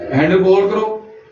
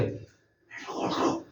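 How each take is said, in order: First: It is said in a medium, normal voice. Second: It is said in a whisper.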